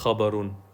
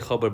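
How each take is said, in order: First: The word ends with an extra '-un' syllable. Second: The word ends without the final '-un' syllable. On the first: This is the formally correct full form. "but it's actually technically khabarun" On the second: This is the everyday spoken form. "we say khabar"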